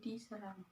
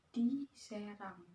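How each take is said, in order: First: It is said as one word without a break. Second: It is said as two words, di and Serang. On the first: Someone was attacked. "Ketika itu digabung, maka dibacanya menjadi diserang" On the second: It refers to a place called Serang. "ketika di-nya dipisah, dibacanya menjadi diserang"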